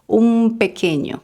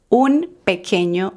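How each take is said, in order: First: The first word ends with an m sound. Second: The first word ends with an n sound. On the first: The speaker calls it right. "con M" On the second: The speaker calls it wrong. "no decimos un pequeño"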